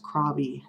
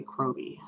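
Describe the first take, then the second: First: Krobby with an open "ah", KRAH-bee; alternate pronunciation. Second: Kroby with a long O, KROH-bee; own pronunciation. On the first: Vlogger giving the way she has heard it, KRAH-bee. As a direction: say Krobby to rhyme with hobby. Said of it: "which I've heard pronounced". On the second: Vlogger saying how she says the name, KROH-bee. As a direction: say Kroby with "crow" up front. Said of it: "I say Kroby". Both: Shown as a demonstration.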